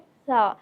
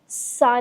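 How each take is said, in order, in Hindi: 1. पहला व्यंजन नरमी से बोला जाता है। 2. पहला व्यंजन कड़ाई से बोला जाता है। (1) "नरमी से अदा होता है" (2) "नहीं"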